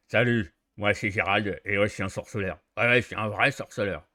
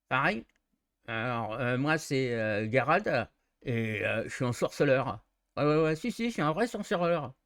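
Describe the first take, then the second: First: Lower, louder, jaw pushed forward; heavy witcher with jaw thrust out; heavy jutting jaw. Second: Jutting jaw witcher. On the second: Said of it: "les trois hauteurs de voix". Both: Shown as a demonstration.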